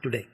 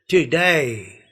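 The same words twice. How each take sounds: First: The final vowel is a single pure vowel. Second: The final vowel glides as a diphthong. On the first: The speaker calls it wrong. "not today" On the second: The speaker calls it right.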